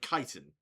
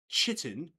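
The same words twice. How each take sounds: First: The first syllable does not sound like 'chit'. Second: The first syllable sounds like 'chit'. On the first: This is the speaker's own way of saying it. The speaker calls it right. "we are from the United Kingdom" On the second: This is how some other people say it. The speaker calls it wrong. "Chit in, like C H I T"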